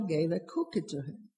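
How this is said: The word cookie carries the main stress. The speaker calls it right. "unless you put, I think, intonation center on cookie"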